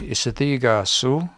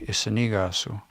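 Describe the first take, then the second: First: The consonant after isi is a th sound. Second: The consonant after isi is an n sound. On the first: "in T H they say" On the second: "in N they say"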